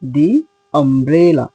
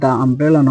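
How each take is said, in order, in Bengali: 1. 'the' শব্দটি লম্বা 'ee' স্বরধ্বনি দিয়ে উচ্চারিত হয়। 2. 'the' শব্দটি ছোট 'uh' স্বরধ্বনি দিয়ে উচ্চারিত হয়। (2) "তাহলে এটা দা আমব্রেলা নয়"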